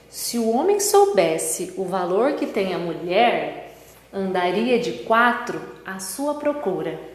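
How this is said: It is read with pauses between phrases. "colocando a pontuação"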